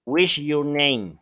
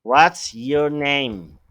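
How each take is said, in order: First: Said slowly, What's sounded like /wiʃ/; slow demo of the wrong form; slow wrong example. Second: Spoken slowly and clearly, What's stretched out; slow, careful teacher demo; slow model question. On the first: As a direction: model the mistake slowly for the class. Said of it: "Tú nunca vas a decir". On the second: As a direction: dictate it slowly as the correct model. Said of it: "Por eso está mal dicho". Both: Shown as a demonstration.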